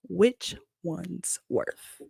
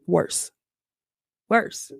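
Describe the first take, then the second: First: Dry mouth, slurred; tongue sticking, slowly; tongue tied. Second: Said in the usual way. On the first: Real, not acted. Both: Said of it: "tongue tied".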